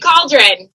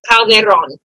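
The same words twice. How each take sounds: First: The name is said with an anglicized pronunciation. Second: The name is said with its native pronunciation. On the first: This is how a non-native speaker would say it. "I say Calderon" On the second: This is how it is said in the family's original language. "If you're saying it correctly, in my husband's natural tongue"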